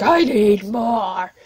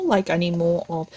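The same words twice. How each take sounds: First: Stretched slow, whining for more; drawn-out whine. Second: Said in the usual way. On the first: Retold or imitated. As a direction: drag out I need more like a hungry fan. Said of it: "it's like".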